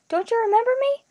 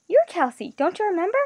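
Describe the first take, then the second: First: Very high, loud distressed plea; mounting alarm, pitched way up at the end; voice rising higher. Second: Raised, startled disbelief; higher pitch, taken aback; surprised. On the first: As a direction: climb to a high, pleading pitch. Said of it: "Her voice was rising higher". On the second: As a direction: ask in rising astonishment. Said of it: "The voice registered surprise". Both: A narrator's reading.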